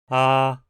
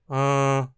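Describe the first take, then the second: First: The vowel is plain and fully oral. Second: The vowel is nasal, air through the nose. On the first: "a forma plena" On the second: "a mesma vogal de forma nasal"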